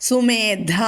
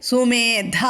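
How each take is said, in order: No difference in how they are said.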